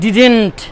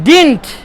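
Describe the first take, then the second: First: An extra vowel sounds before the n. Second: The d runs straight into the n. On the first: The speaker calls it wrong. "অনেকেই ডিডেন্ট বলার চেষ্টা করেন, উচ্চারণটা ঠিক হয় না।" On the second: The speaker calls it right. "বলেন ডিডন্ট"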